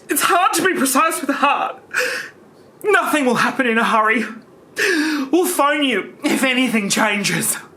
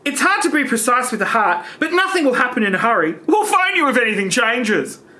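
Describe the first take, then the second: First: It is read in a grave, somber tone. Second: It is read in a plain, neutral tone.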